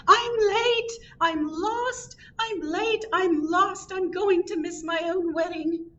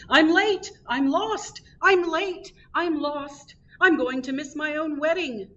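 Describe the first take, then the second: First: Very high-pitched yelling bride. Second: High-pitched panicked yell of a late groom. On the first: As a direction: cry out way up high, running late. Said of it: "She was yelling". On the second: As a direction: call it out high while rushing past. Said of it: "he was yelling". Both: A narrator's reading.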